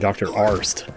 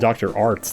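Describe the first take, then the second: First: The name ends with the 't' sound after 's'. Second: The name ends with the 's' sound after 't'. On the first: The speaker calls it right. "It's actually Doctor Arst" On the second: The speaker calls it wrong. "I think I called him Doctor Arts last time"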